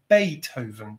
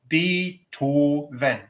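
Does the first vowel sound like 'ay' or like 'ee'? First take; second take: ay; ee. First: The first vowel shifts toward an 'ay' sound. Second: The first vowel is a pure 'ee' sound. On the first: An English speaker says it. The speaker calls it wrong. "we take the vowel E, we change it to A" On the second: A German speaker says it. The speaker calls it right. "those vowels are all pure"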